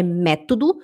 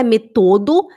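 First: "método" as MÉ-to-do; correct first-syllable stress. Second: "método" stressed on the second syllable, me-TO-do; "método" as meTOdo; wrong stress. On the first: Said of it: "é método". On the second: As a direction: push the accent onto TO in "método". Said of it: "não é método". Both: Shown as a demonstration.

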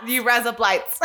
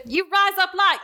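First: A light Aussie twang, laughing; Australian accent. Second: High mock Australian accent on rise up lights. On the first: Co-host repeating the demo, light Australian accent. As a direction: echo it in a hint of Australian. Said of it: "Australian accent". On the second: Explaining the joke to listeners, high mock Australian accent. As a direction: demo the Aussie twang. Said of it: "if you don't know an Australian accent". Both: Shown as a demonstration.

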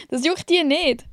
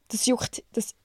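First: Said in the usual way. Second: Words catching in the throat; choking on a drink. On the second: Real, not acted. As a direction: choke on it as you speak. (verschluckt beim Sprechen)

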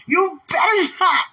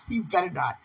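First: High, emphatic mock threat; playful warning. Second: Said in the usual way. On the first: Woman teasing her beloved not to talk, playful warning. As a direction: warn with hammed-up force.

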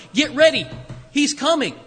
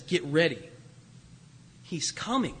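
First: Calling out. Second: Hushed. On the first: The crying voice in wilderness. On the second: Quiet echo of the voice's cry. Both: Acted.

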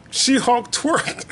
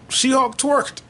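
First: "She-Hulk twerked" drawn out slowly; slowed-down amazed repeat. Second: Said in the usual way. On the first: Shown as a demonstration.

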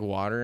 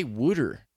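First: Said in the usual way. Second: WOODER with an oo in the first syllable; mock-quoting the odd "wooder"; mispronounced water. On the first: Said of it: "So she'd say". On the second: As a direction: say "wooder", rhyming it with "gooder". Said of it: "Why'd you say wooder?".

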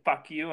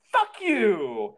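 First: Said in the usual way. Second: Parting yell as the door slams; angry shout. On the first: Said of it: "while I said the second". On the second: Retold or imitated. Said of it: "before I shut it, I go".

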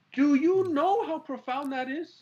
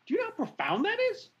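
First: Slow, louder, high and drawn out; awed emphasis. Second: Quick, high, breathless wonder; amazed. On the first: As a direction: lean on every word in awe. Repeating his amazement, slower. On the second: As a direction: rush it out in awe. Marveling at God's choice. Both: Real, not acted.

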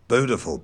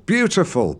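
First: "beautiful" as "boo-tiful", without y; plain oo in "beautiful"; yod-dropped pronunciation. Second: "beautiful" as "byoo-tiful", with y; standard pronunciation. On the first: Retold or imitated. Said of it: "every time he said". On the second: Shown as a demonstration. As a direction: correct him with the y in "beautiful".

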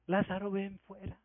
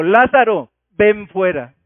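First: Hushed, far too gentle a summons; understated murmur of a call; soft, timid call. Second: Loud, forceful voice of command; booming summons, each part punched out; commanding shout. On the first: Shown as a demonstration. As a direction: say it quietly, with no command in it. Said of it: "seguramente el Señor no le dijo". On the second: Acted. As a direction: call out like a general ordering troops. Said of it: "me puede recordar la voz de mando".

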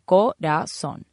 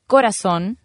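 First: "Corazón" broken slowly into co-ra-zón, stress on the last; syllable by syllable. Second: Said in the usual way. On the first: Shown as a demonstration. Teacher showing students the accented last syllable, "Corazón" slowly syllabified. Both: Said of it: "se acentúa en la O".

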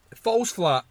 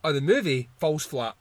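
First: "falls" pushed higher and louder; emphatic repeat. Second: Said in the usual way. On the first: Real, not acted. Repeating his verdict, he hits "falls" hard. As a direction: hammer the word "falls".

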